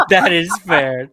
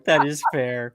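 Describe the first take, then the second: First: Said through a big laugh. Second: Said in the usual way. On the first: Real, not acted. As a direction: laugh out the words. Laughing at the joke.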